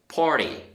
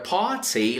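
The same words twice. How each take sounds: First: It has an American accent with a soft t. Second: It has a British accent with a crisp t. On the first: "You will say party" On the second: "you will not say party or a party like in British"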